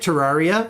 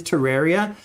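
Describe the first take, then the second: First: Terraria said the speaker's former way; old pronunciation. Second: Terraria said the technically correct way, like terrarium; technical pronunciation. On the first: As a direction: say Terraria as you used to mispronounce it. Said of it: "I used to say it". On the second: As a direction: say Terraria to rhyme with area. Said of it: "it technically is Terraria". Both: Shown as a demonstration.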